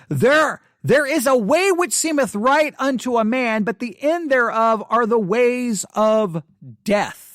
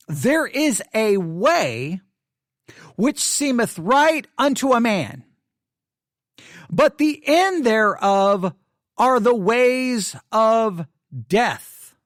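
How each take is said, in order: First: Said in the usual way. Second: Slow, weighty reading with long pauses; solemn scripture reading. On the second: Shown as a demonstration. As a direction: draw each phrase out like a sacred text. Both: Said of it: "Let me read the verse again".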